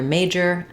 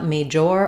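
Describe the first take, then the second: First: The last syllable has a reduced 'er' vowel. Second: The last syllable has a full 'or' vowel. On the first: The speaker calls it right. "you're going to have just the er sound" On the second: The speaker calls it wrong. "those letters or don't say or. It's not major"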